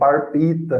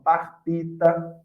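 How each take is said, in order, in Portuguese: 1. A primeira sílaba termina com um som de R. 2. A primeira sílaba termina com um som de L.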